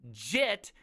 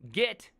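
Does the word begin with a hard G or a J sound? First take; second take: J sound; hard G. First: The word begins with a J sound. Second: The word begins with a hard G sound. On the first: This pronunciation names the version control system. The speaker calls it right. "JIT is a version control system" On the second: This pronunciation is an insult. The speaker calls it wrong. "Git is an insult"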